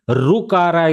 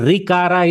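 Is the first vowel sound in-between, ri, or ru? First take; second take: ru; ri. First: The first syllable sounds like a clear ru. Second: The first syllable sounds like a clear ri. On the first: "rukara is wrong" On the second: "rikara is wrong"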